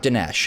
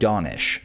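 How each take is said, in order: First: The name is said as 'Dinesh'. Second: The name is said as 'Donish'. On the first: The speaker calls it wrong. "so it's not Dinesh, as I've been mispronouncing" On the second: The speaker calls it right. "he pronounces his own name Donish"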